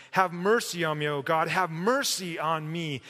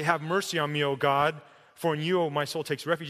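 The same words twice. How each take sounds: First: MERCY pushed harder, crying from the heart; emphatic. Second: Said in the usual way. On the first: Shown as a demonstration. Preacher shows how David prays in verse one, emphatic stress on "mercy". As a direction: lean hard on each "mercy" as a plea. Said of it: "He's being very emphatic". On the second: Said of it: "he doesn't say".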